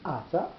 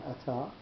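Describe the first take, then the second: First: Ata said A-ta, leaning on the opening vowel; emphatic first-syllable stress. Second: Ata said a-TA, the normal form; stress on second syllable. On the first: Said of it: "Ata is a more emphatic". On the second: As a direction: put the accent on the final TA of Ata. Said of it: "what's the difference between". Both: Shown as a demonstration.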